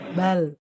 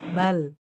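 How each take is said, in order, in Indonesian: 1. Bunyi L tidak dihentikan dan tidak dipanjangkan. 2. Bunyi L tidak dihentikan dan tidak dipanjangkan.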